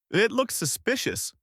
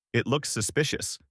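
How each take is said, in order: First: High flustered sputter. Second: Cracking, unsure protest. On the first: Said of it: "he sputters". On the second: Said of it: "his voice cracking". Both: A narrator's reading.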